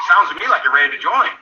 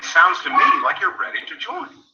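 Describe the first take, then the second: First: A hurried, rising "Sounds to me like you're ready to join"; rushed. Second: Said in the usual way. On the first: Shown as a demonstration. Wrong way to ask a prospect, hurried and unsure. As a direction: rush it out like a nervous pitch. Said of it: "I'm not saying". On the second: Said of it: "I'm saying".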